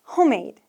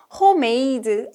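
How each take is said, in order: First: "homemade" as HOME-made, ending on d; two clean syllables. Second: "homemade" slow, as ho-may-duh; mispronounced Korean-style. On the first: Teacher correcting a common mistake, two-syllable "homemade". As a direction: stop "homemade" at the d, no added vowel. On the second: Teacher imitating a mistake she hears, "homemade" as ho-may-duh. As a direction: add a vowel after the final d of "homemade". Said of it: "I hear homemade a lot". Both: Shown as a demonstration.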